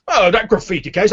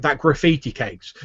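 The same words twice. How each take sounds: First: Higher, louder scoffing echo; blustering official. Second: Apologetic guard. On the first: Fat official answers guard about the graffiti case, indignant. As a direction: throw it back indignantly at the guard. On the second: Guard apologizing to angry official. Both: Acted.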